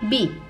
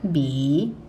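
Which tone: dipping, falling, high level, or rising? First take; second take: falling; dipping. First: The pitch falls sharply from high. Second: The pitch dips low, then rises.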